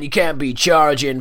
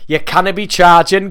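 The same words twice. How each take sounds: First: It is said in a put-on rock-star voice. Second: It is said in a Geordie accent. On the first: "I don't know why I do that fucking voice every time I'm doing like a kind of rock star" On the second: "I'm gonna default back to Geordie Karabi"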